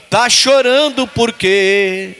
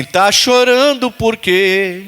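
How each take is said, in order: First: Slow, sung like the hymn line. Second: Drawn out slowly, just spoken; slow spoken line. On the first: Preacher shows the congregation how to sing it, slow and melodic. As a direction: sing it, don't speak it. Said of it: "Não, desse jeito, cantando". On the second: Preacher has congregation repeat the line, slow and spoken. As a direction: say it slowly, no melody. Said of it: "Fala assim". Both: Shown as a demonstration.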